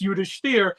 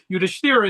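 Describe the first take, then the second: First: The name ends without a final vowel. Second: The name ends with a final 'a' vowel.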